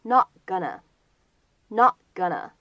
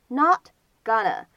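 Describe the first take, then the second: First: "not gonna" with the T held, never released; slow demo of "not gonna", no burst on the T; unreleased T. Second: Said in the usual way. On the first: Shown as a demonstration. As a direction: stop the T of "not" silently before "gonna". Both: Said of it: "有明显的失去爆破的现象".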